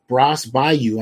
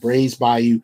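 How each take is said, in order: First: The first word has a short 'a' like 'brass'. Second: The first word has a long 'ay' like 'brays'. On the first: The speaker calls it wrong. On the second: The speaker calls it right.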